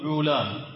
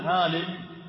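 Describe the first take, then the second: First: The first vowel is a rounded 'o'. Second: The first vowel is a long open 'a'. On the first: This is the Hebrew form. "وهم يقولون علام" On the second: This is the Arabic form. "والعرب يقولون عالم"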